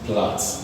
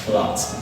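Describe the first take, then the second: First: The vowel is a short 'a' sound. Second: The same.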